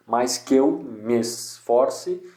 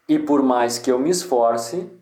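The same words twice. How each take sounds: First: Slowly scanned "que eu" and "me esforce", each joined; joined syllables. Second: Said in the usual way. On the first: Shown as a demonstration. Teacher showing merged syllables, slow "que eu me esforce". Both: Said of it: "Me esforce é uma sílaba só".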